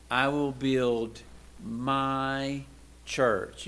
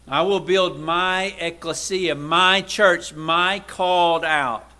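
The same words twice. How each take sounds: First: I will build, my, church, each word set apart by pauses; slow, spaced words to let it land; deliberate, spaced-out emphasis. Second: Louder, higher preaching with my punched hard; forceful proclamation. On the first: Slow emphatic scripture quote. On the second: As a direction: proclaim it to the congregation. Proclaims Jesus' words. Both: Acted.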